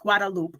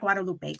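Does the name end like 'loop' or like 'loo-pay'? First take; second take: loop; loo-pay. First: The name ends with a 'loop' sound. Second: The name ends with a 'loo-pay' sound. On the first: The speaker calls it right. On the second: The speaker calls it wrong. "not Guadalupe"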